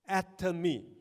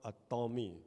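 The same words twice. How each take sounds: First: It begins like the word atom, then me. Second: It begins like a Tom, then y. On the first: The speaker calls it right. "it is atomy, very atom" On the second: The speaker calls it wrong. "don't change it to an atomy, because it is not a Tom"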